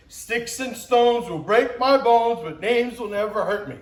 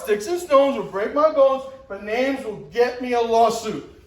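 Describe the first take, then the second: First: Put-on childhood rhyme recited. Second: Mocking remix. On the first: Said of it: "something we would recite". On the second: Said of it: "Now it's".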